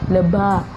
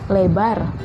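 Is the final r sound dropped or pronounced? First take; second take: dropped; pronounced. First: The final r sound is dropped. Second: The final r sound is pronounced.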